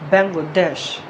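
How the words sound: It is said the English way, final syllable stressed. The speaker calls it right. "The stress at the last syllable, dash"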